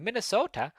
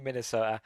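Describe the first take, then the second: First: Put-on Minnesota accent. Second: Said in the usual way. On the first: Reviewer naming where Blue lands, mock Minnesota accent. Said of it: "do a Minnesota accent". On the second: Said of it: "I've just done it twice".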